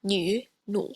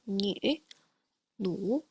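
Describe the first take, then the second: First: Nu with a plain u, then nu with an umlaut u; nu contrast. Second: Nu then umlaut nu, said softer; nu contrast repeated. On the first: Teacher contrasts normal and umlaut nu. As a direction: contrast the two nu vowels. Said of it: "differentiate between sounds like". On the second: Teacher repeats the nu pair softly. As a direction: repeat the two nu vowels quietly. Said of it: "let me repeat those again". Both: Shown as a demonstration.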